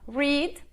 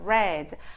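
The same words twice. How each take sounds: First: The vowel does not sound like red. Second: The vowel sounds like the word red. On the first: It is the base form of the verb. "o infinitivo ou a forma básica" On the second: It is the past participle of the verb. "como se você fosse falar da cor vermelha"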